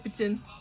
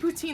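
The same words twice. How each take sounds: First: The word is said with a French pronunciation. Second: The word is said with an English pronunciation. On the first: "if you want to sound fancy in French" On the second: "nobody's gonna get on your case about it"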